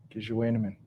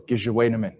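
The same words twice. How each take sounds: First: Gizhewainemin repeated softer, gi-zhe-wai-ne-min, falling; Ojibwe word repeated softly. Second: Gizhewainemin said clearly, gi-zhe-wai-ne-min, falling at the end; Ojibwe word. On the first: Teacher repeats Gizhewainemin softly for listeners. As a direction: echo Gizhewainemin quietly for them to copy. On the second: Teacher shows the audience how to say Gizhewainemin. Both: Shown as a demonstration. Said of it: "And there's also".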